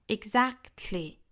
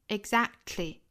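No difference in how they are said.

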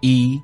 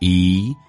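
First: The pitch stays level on the word. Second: The pitch rises on the word. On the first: "也可以用平调" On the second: "rising tone 升调"

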